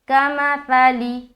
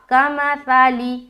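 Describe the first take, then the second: No difference in how they are said.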